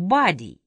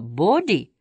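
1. Первая гласная звучит как 'ah'. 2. Первая гласная звучит как 'oh'. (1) "они превращают в «body»" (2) "Американцы меняют гласные «а» на «о» и наоборот"

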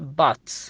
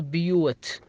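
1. الصوت يُنطق مثل ah. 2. الصوت يُنطق مثل yoo. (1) "تنطق بات" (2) "ولا تنطق بيوت"

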